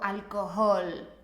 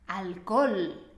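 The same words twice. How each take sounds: First: The h in the middle is pronounced. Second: The h in the middle is silent. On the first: The speaker calls it wrong. "no me digas" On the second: The speaker calls it right.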